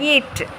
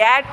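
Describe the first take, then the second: First: The vowel sounds like 'ee'. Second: The vowel sounds like 'ay'. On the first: The speaker calls it right. "ஈயும் ஏவும் சேர்ந்தாலே ஈ" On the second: The speaker calls it wrong. "இல்லை"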